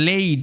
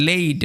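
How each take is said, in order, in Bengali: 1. স্বরধ্বনিটি 'ay'-এর মতো শোনায়। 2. স্বরধ্বনিটি 'ay'-এর মতো শোনায়।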